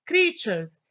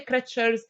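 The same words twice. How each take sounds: First: Said in the usual way. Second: "creatures" with a short e, like "cretchers"; wrong short vowel. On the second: Shown as a demonstration. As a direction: say "creatures" as KRETCH-erz, first vowel as in "treasures". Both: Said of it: "I cannot say creatures".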